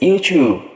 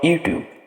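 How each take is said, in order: First: The middle consonant is a ch sound. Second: The middle consonant is a plain t sound. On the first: The speaker calls it right. "it is YouTube" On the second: The speaker calls it wrong. "YouTube is not YouTube"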